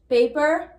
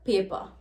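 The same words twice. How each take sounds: First: The ending sounds like 'er'. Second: The ending sounds like 'a'.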